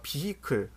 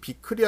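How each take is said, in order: First: It is said with an h sound. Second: It is said without an h sound. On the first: The speaker calls it right. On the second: The speaker calls it wrong. "발음이 비클이 아니라"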